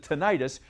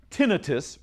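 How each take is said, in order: First: "tinnitus" stressed on the middle syllable, tih-NIGH-tus; alternative pronunciation. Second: "tinnitus" stressed on the first syllable, TIN-ih-tus. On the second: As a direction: say "tinnitus" as TIN-ih-tus, short middle vowel. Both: Shown as a demonstration. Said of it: "some people pronounce it tinnitus".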